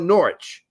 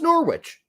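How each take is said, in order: First: The word rhymes with porridge, starting with N. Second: The word does not rhyme with porridge. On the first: This is the town's current pronunciation. "it's now Norwich" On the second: This was the town's older pronunciation. "the actual real English pronunciation of Norwich before it, you know, the language changed"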